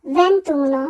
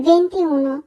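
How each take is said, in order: First: "ভেন্তুনো" dropping the i, ven-too-no; correct ventuno. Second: "ভেন্তিউনো" keeping the i, ven-ti-u-no; wrong venti-uno. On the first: Teacher correcting twenty-one, elided "ভেন্তুনো". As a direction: merge it into three syllables, "ভেন্তুনো". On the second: Teacher showing what many say, unjoined "ভেন্তিউনো". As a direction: keep two words audible in "ভেন্তিউনো". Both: Shown as a demonstration. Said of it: "আসলে উচ্চারণ হবে".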